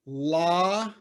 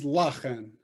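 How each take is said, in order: First: "La-chen" with a long held "La"; teacher sounding out "La ... chen"; split into syllables. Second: "La-chen" as one connected word; plainly blended "La-chen"; syllables joined. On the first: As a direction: stretch "La", pause, then "chen". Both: Shown as a demonstration. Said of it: "Just like this is Ba-chen".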